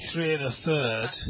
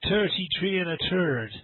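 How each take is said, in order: First: The th sounds are said as a soft th. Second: The th sounds are said as a plain t.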